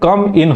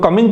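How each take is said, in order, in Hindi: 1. दोनों शब्द साफ़ अलग-अलग बोले जाते हैं। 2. शब्द मिलकर एक शब्द जैसे लगते हैं। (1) "कम इन होता है, कमिंग नहीं" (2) "कई लोग कमिंग कर देते हैं"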